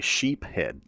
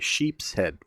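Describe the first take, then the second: First: There is no S sound after sheep. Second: There is an S sound after sheep. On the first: The speaker calls it wrong. "I never say sheep head" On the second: The speaker calls it right. "I always say sheep's head"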